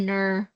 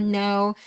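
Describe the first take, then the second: First: "Ner" as an Aussie "no", vowel turned to "uh"; Aussie-style "Ner" for "no"; Australian pronunciation. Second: "no" with a rounded American "oh"; plain American "no"; American pronunciation. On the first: Retold or imitated. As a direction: mimic an Australian "no", sounding like "Ner". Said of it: "sa kanila kay Ner". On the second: Shown as a demonstration. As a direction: say "no" the American way, ending in "oh". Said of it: "kung sa American ba".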